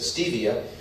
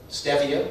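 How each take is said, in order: First: It uses the popular everyday pronunciation. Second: It uses the botanical reference pronunciation. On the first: The speaker calls it wrong. "everybody says stevia" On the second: The speaker calls it right. "one of the most mispronounced words"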